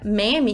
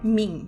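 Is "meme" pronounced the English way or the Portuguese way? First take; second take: Portuguese; English. First: It is said in Portuguese, with two syllables. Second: It is said in English, rhyming with cream. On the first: "a pronúncia meme em português é bem eficiente" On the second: "deve rimar com cream, ou seja, em inglês, a pronúncia certa é"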